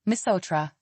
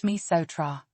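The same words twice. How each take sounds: First: Said in the usual way. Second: "misotra" sounded out as mee-so-tra; pronunciation demo. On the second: Shown as a demonstration. Teacher showing learners Malagasy thank you, careful pronunciation demo. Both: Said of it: "is pronounced".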